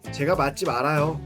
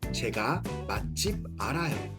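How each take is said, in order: First: It is said at natural speed. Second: It is said slowly.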